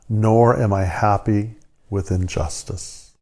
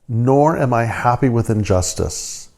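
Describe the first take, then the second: First: It is read slowly and prayerfully. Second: It is read at a normal pace.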